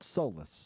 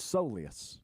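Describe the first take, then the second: First: The word is said with two syllables. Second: The word is said with three syllables. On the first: The speaker calls it wrong. "not solus" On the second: The speaker calls it right. "turns out it's a soleus"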